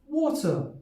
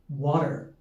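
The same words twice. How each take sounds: First: It is said in a British RP accent. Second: It is said in a standard American accent. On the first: "R P accent or the B B C accent" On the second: "standard American accent"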